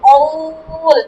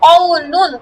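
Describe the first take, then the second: First: The word ends cut off on the consonant. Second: The word is said with its full ending. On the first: The reader stops on this word. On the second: The reader continues without stopping.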